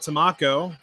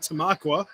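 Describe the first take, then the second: First: The name ends with a 'ko' sound. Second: The name ends with a 'kwa' sound. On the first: The speaker calls it wrong. "I had no idea how to pronounce Tamaqua, so I called it Tamako" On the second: The speaker calls it right. "So now it's officially Tamaqua"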